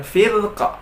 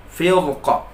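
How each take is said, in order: First: Firqa with a light thin r, slowly, the wrong way at a pause. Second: Firqa with a thick heavy r, slowly; correct heavy ra. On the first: Teacher demonstrates the wrong reading. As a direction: show the error: firqa with thin ra. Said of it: "bukan firqa". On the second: Teacher gives the correct reading at a pause. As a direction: model the right firqa, heavy ra. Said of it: "tapi firqa". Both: Shown as a demonstration.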